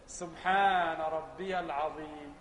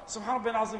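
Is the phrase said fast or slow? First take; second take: slow; fast. First: The phrase is said slowly and calmly. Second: The phrase is said quickly and hurriedly. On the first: The words are reflected on while praying. The speaker calls it right. "بس بالراحة بهدوء كده" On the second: The prayer is rushed without calm. The speaker calls it wrong. "يبدو أنك شغال بالكهرباء"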